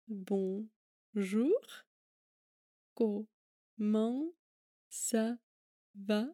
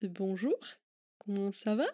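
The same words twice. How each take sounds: First: The phrase is spoken slowly. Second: The phrase is spoken at a normal pace.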